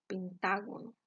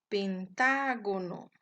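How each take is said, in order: First: Said in the usual way. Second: "pentágono" slow and loud, long stressed "tá". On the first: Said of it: "Veamos algunos ejemplos". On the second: Shown as a demonstration. Teacher showing the stressed syllable, "pentágono" with loud long "tá". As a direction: stretch and punch the "tá" in "pentágono". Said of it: "la sílaba tónica se encuentra en la antepenúltima".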